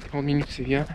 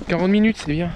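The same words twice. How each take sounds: First: Softer, lower, to himself; quiet muttered repeat. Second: Said in the usual way. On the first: Real, not acted. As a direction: mutter it again for yourself. (répété à voix basse) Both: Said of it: "repeats it to himself".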